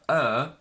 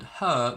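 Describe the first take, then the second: First: The word is said without the h sound. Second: The word is said in full with h. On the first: "her becomes either er" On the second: "we pronounce it with a strong form, so we pronounce every single sound"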